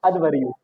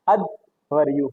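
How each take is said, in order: First: Said in the usual way. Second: Slow careful pronunciation. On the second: Shown as a demonstration. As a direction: say Adhvaryu slowly, every syllable clear.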